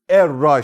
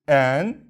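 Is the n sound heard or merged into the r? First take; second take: merged; heard. First: The n is dropped and the r is doubled. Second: The n is pronounced before the r. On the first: The speaker calls it right. "Nunu, yani neyi ortadan kaldır. Şedde de veriyoruz" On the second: The speaker calls it wrong. "Buna biz enra diyorduk ya"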